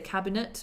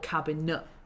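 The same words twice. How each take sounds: First: The final T is clearly pronounced. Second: The final T is dropped.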